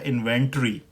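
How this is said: It is said in a British accent.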